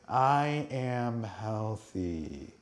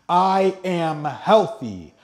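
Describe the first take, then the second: First: It is said flatly, with little energy. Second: It is said enthusiastically, with high energy. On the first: The speaker calls it wrong. "You can't just say" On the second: The speaker calls it right. "that high vibrational energy"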